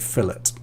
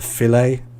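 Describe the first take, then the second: First: British pronunciation, not in the French way. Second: American pronunciation, in the French way. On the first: "and we say fillet" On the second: "in America, sometimes they use the French pronunciation. For example, with fish, they say a, uh, a filet fish"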